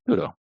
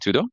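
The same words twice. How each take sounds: First: The voice falls at the end, like a statement. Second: The voice rises at the end, like a question. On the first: It confirms that is everything. "with that inflection of the affirmative" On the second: It asks whether that is everything. "they'll look at you and say tudo"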